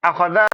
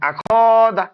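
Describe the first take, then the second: First: The last syllable is drawn out long. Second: The middle syllable is drawn out long. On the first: "শুধু টানবো লাস্টে যাতে।" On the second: "তাহলে আমি টানলাম খয়ে।"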